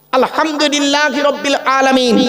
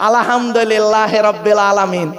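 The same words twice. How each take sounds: First: Slow আলহামদুলিল্লাহি with a throaty ha; correct recitation. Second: Slow, lower আলাহামদোলেল্লাহেরা with an o and e slur; mock the careless village reading; imitating a wrong recitation; common mispronunciation. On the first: Shown as a demonstration. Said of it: "এ গলার ভেতর থেকে হে এটা উচ্চারণ করবেন". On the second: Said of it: "আর আমরা উচ্চারণ করি কি শুনবেন".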